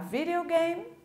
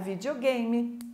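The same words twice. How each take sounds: First: It is said with an English-style pronunciation. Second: It is said with a Portuguese-style pronunciation.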